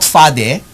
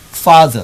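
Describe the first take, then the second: First: The final vowel is a full, open vowel. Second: The final vowel is a short, weak schwa. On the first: The speaker calls it wrong. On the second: The speaker calls it right.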